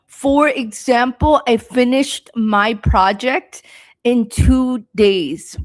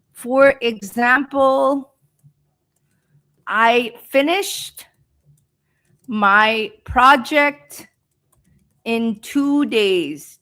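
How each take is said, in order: First: Said in the usual way. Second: Slow dictation, a pause after each phrase; slow speech. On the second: Shown as a demonstration. Teacher giving students an example sentence, slow speech. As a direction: draw out each phrase for learners. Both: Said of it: "I'm speaking slow".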